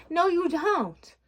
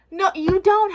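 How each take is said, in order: First: Higher, slow, drawn-out scolding; firm no. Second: Higher and louder, punching DON'T; emphatic no. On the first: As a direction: stretch it out like scolding yourself. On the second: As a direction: yell it at your past self. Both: Real, not acted. Scolding her past self.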